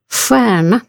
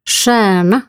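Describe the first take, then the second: First: The first sound is unlike the rs in kurs. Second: The first sound is like the rs in kurs. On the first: "Det kan låta så här" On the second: "Eller så här, som RS i kurs"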